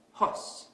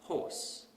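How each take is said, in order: First: Hos, horse without the R; dropped R. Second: Horse with the R sounded; horse, R pronounced; correct R. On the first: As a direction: say hos with no R sound. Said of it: "we might pronounce this word as". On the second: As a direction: say horse with a clear R. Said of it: "instead of". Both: Shown as a demonstration.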